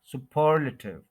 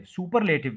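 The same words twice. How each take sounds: First: superlative as su-PER-luh-tiv; stress on second syllable. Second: Said in the usual way. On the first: Shown as a demonstration. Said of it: "second syllable पे आपने stress". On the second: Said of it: "superlative नहीं बोलना".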